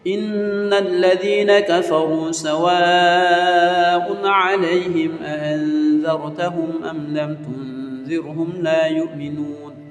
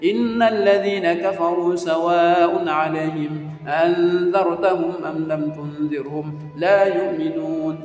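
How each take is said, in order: First: The verse is recited slowly. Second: The verse is recited quickly. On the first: The verse is already memorized. "baru pelan-pelan dikit" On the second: The verse is still being memorized. "ini waktu menghafal ini cepat-cepat aja"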